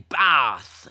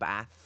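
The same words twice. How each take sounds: First: It is said with a Southern English vowel. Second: It is said with a Northern English vowel. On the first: "except when they say bath" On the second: "I say bath"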